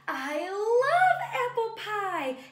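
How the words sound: It is said with lots of expression and feeling.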